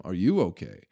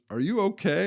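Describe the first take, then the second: First: Mocking echo. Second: Raised, higher concerned question from the boss; a lightly voiced worried old boss checking in; boss asking if okay. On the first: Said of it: "What the fuck you asking me". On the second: Company owner asks the stoned guy, lightly voiced concern. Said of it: "he just goes".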